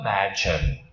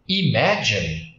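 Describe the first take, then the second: First: The key vowel is pronounced as an 'a' sound. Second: The key vowel is pronounced as an 'i' sound. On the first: The speaker calls it right. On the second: The speaker calls it wrong.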